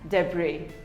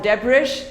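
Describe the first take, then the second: First: The final S sound is silent. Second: The final S sound is pronounced. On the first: The speaker calls it right. "The S is silent" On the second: The speaker calls it wrong. "It is not debris or debris"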